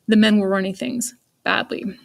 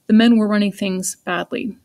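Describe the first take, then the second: First: There is a long pause before 'badly'. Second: There is a short pause before 'badly'. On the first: The last bit is given strong emphasis. "Or if I really wanted some emphasis there, I could use a dash" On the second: The last bit is given some emphasis. "I could raise the punctuation from nothing to a comma"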